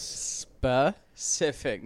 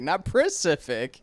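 First: "Specific" drawn out very slowly; correcting pronunciation. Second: "Pacific" sounded out slow, high and loud; mocking mispronunciation. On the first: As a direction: stretch "Specific" out syllable by syllable. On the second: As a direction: hit "Pacific" slowly as the wrong word. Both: Shown as a demonstration.

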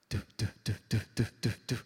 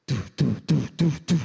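First: Low, evenly repeated thudding noises; imitated tumbling noise. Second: Very loud, heavy thudding noises; imitated louder noise. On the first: Imitating a little boy rolling down the plane aisle, thudding. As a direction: mimic something tumbling down the aisle. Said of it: "I hear down the aisle". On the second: Imitating a louder noise coming down the plane aisle, booming. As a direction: pound out each imitated thud at full volume. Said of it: "I hear a louder noise".

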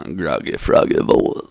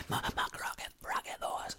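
First: Loud, throaty froggy croak; groggy froggy voice. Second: Voiceless, croaky whisper; whispered groggy froggy voice. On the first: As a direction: croak it out loudly, playing groggy. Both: Shown as a demonstration. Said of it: "Let me get my groggy froggy voice".

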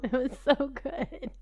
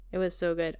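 First: Slow, higher, savouring each word; like remembering something delicious; dreamy delight. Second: Said in the usual way. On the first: Real, not acted. Savouring memory of taste.

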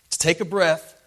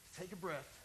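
First: Louder, full-voiced push for air; a heaving, loud gasp; forceful breath. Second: Hushed, airless gasp for breath; much softer, as if straining for air; a strained whisper of breath. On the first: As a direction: drive the words out hard. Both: Shown as a demonstration. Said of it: "pushing against his feet".

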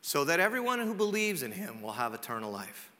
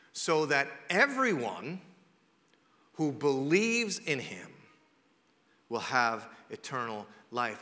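First: Said in the usual way. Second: Very slow, phrase by phrase with long pauses; deliberately slow. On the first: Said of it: "saying this slow to you". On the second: Real, not acted. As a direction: spell it out slowly, letting each phrase land. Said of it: "here's why I'm saying this slow to you".

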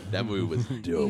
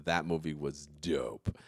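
First: A touch of Sam Elliott again, laughing in. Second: Slow, lightly deep cowboy drawl; a hint of Sam Elliott, slow. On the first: Retold or imitated. Asked to say it again, lightly voiced Sam Elliott. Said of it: "talk in that voice all the time". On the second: Talking movies with friends, slow mild Sam Elliott voice. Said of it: "that's Sam Elliott".

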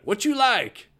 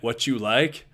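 First: High-pitched Texas drawl, insistent; Coach Tatum. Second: Said in the usual way. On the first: Retold or imitated. Coach repeating his question to puzzled player, Texas drawl. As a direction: repeat it in a big Texan twang. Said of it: "do my impression of Coach Tatum".

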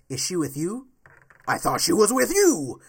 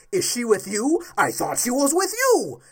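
First: Lightly voiced Batman, loud at the end; quoting Batman. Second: Louder, mocking Batman line; a hint of Batman, mocked louder; quoting Batman. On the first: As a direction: throw out the movie line as Batman. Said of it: "Batman says". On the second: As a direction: sneer the quote back at him. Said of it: "you're going to ask".

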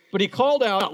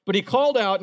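First: Called out loud like a prophet; booming prophet's call; proclaimed. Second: Loud prophet's call; booming prophet's call; proclaimed again. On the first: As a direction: announce it to the city. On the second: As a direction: call it out to the city. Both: Shown as a demonstration. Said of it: "listen to this".

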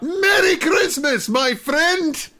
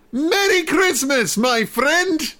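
First: Mock yell. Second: High, mock German Red Baron voice; faux German accent. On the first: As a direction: yell it out like a whole crowd joining in. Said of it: "they just yell out". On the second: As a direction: say it like a hammed-up German flying ace. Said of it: "in sort of a faux German Kim dot com sort of accent".

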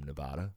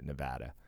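First: Broad "ah" in the middle of Nevada. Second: Short "a" as in "cat" in Nevada; local Nevada pronunciation. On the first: Real, not acted. Talking of foreign guests, Nevada said neh-VAH-duh. Pronounces state name the eastern way. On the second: Shown as a demonstration. Correcting himself as a resident, Nevada said neh-VAD-uh. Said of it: "I should say it. I live here".

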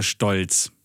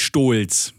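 First: „Stolz“ mit kurzem, offenem o; kurzes o. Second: „Stolz“ falsch mit langem, geschlossenem o; langes o. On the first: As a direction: sprich „Stolz“ mit o wie in Post. (kurzes o in „Stolz“) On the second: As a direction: dehn das o in „Stolz“ wie in Stola. („Stolz“ wie „Stohlz“ gesprochen) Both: Shown as a demonstration. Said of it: "damit ein Vokal kurz gesprochen wird".

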